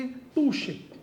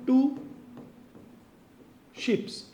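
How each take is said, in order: First: टू शिप said as the right form, with no s at the end; correct form. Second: टू शिप्स said as the wrong plural, with a clear s at the end; wrong form. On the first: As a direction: say टू शिप cleanly, without any plural s. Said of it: "ये सही है". (सही रूप: टू शिप, बिना स के) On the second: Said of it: "ऐसा आप मत बोलो". (गलत रूप: टू शिप्स, अंत में स के साथ) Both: Shown as a demonstration.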